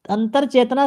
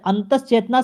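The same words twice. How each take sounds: First: "अंतर चेतना" with r, an-tar chetna; wrong form antar. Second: "अंतस चेतना" with s, an-tas chetna; corrected form antas. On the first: Teacher showing the wrong word, "अंतर" as an-tar. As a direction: end "अंतर" on an r. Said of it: "शब्द गलत है". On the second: Teacher giving the right word, "अंतस" as an-tas. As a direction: end "अंतस" on an s. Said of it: "शब्द सही है". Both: Shown as a demonstration.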